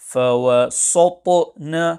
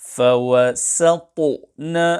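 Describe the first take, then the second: First: The s sound is heavy, like sad. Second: The s sound is plain, like seen. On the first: The speaker calls it wrong. "some pupils pronounce this letter as sad. Hence, to recite فَوَسَطْنَ will be incorrect" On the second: The speaker calls it right. "The correct pronunciation is"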